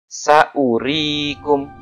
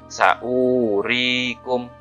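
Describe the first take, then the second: First: The vowel after the glottal stop is short. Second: The vowel after the glottal stop is long. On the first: The speaker calls it right. "huruf hamzahnya dibaca pendek" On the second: The speaker calls it wrong. "bukan dibaca saurikum, enggak"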